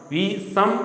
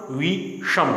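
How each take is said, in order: First: Said in the usual way. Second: "विषम" with a curled-back sh in the middle; retroflex sh. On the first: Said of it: "विषम का विषम". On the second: Shown as a demonstration. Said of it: "ध्वनि के उच्चारण में परिवर्तन हो गया". ("विषम" में ष का मूर्धन्य उच्चारण)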